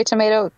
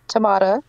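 First: "tomato" with long A, to-MAY-to; tomato said tomayto. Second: "tomato" with broad AH, to-MAH-to; tomato said tomahto. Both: Shown as a demonstration. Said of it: "mispronounce my beautiful".

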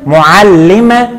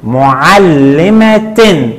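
First: معلمة slowly, as "mu'allimatun"; final u plus n sound on معلمة; tanween damm ending. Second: معلمة slowly, as "mu'allimatin"; final i plus n sound on معلمة; tanween kasr ending. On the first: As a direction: break up معلمة and land on "-tun". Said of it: "عند التنوين بالضم قلنا". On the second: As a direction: break up معلمة and land on "-tin". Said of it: "وعند التنوين بالكسر قلنا". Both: Shown as a demonstration.

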